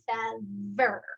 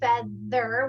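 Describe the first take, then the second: First: The middle consonant is a v sound. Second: The middle consonant is a th sound.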